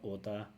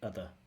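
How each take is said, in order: First: The word ends with a full, clear vowel. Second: The word ends with a weak schwa vowel. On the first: The speaker calls it wrong. "it's not oda" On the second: The speaker calls it right. "but other"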